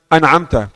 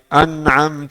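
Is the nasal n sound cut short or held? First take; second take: cut short; held. First: The nasal n sound is cut short. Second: The nasal n sound is held a little. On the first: The speaker calls it wrong. "jangan baca an'amta" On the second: The speaker calls it right. "Harus tahan sedikit"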